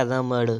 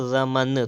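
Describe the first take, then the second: First: रमण with retroflex ṇ; correct pronunciation. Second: रमन with a dental n; wrong pronunciation. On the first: Teacher correcting, रमण with retroflex ṇ. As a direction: flap the end of रमण. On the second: Teacher reading the error, रमन with dental n. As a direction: end रमन on plain n. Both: Shown as a demonstration. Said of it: "तो हो जाएगा".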